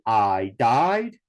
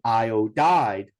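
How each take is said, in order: First: "I died" in two syllables, eye-dide, for iodide. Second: "iodide" in three syllables, eye-oh-dide. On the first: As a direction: drop the middle "oh", saying it as "I died". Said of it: "changed it to two syllables". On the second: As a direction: say "iodide" with the middle "oh" kept in. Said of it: "three syllables as well". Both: Shown as a demonstration.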